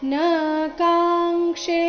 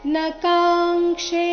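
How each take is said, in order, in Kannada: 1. 'na' ಯ ಸ್ವರವನ್ನು ಎಳೆದು ದೀರ್ಘವಾಗಿ ಹೇಳಲಾಗುತ್ತದೆ. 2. 'na' ಯ ಸ್ವರ ಹ್ರಸ್ವ, ಮುಂದಿನ ಶಬ್ದಕ್ಕೆ ಜೋಡಿಸಿ ಹೇಳಲಾಗುತ್ತದೆ. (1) "ಈ ರೀತಿ ಹೇಳಿದ್ರೆ ನ ದೀರ್ಘ ಆಗಿ ಹೋಗುತ್ತೆ" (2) "ನ ರಸ್ವ ಬರಬೇಕು ಅಂದರೆ ನ ಕಾಂಕ್ಷೆ ಈ ರೀತಿ ಹೇಳಬೇಕು"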